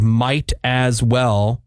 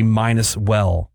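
First: Said in the usual way. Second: MIGHT AS WELL slurred into "minus well"; mispronunciation. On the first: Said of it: "Instead of might as well". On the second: Shown as a demonstration. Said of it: "people say minus well".

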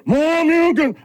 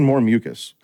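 First: High mock fighting-game shout; imitating game shout. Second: Said in the usual way. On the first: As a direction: yell it like a Street Fighter move. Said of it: "I'm like, they go". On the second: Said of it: "I thought they were saying".

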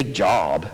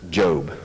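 First: "job" said with a short open vowel, rhyming with sob; job like employment. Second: Said in the usual way. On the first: Shown as a demonstration. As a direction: say "job" like the word for work. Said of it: "I didn't say job". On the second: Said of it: "I didn't say job, at least".

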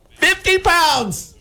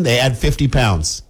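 First: High, drawn-out squeal of disbelief; hammed-up shock at the penalty; mock outraged cry. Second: Said in the usual way. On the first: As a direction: wail it slowly, way up high. Acts outraged reaction to penalty.

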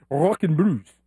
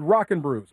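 First: Put-on accent, pitched down; imitating Laura's accent. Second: Said in the usual way. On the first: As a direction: lower mock accent on Rock and Brews. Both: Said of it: "or as Laura says it".

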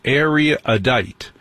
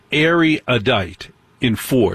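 First: Erudite said slowly in three syllables; own pronunciation. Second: Erudite said slowly in four syllables; mock wrong pronunciation. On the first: Shown as a demonstration. Host shows how he says erudite himself. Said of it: "I say it erudite". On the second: Host mimics the listener's four-syllable erudite. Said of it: "in three syllables, it's three syllables".

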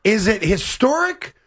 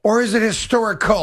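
First: Slow, deliberate "Is it historic", rising on "historic"; option one, questioning. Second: "or is it historical", falling to a close on "historical"; option two, concluding. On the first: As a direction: hold out "historic" with a questioning lift at the end. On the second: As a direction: close the choice by dropping the pitch through "historical". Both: Shown as a demonstration. Posing two word options.

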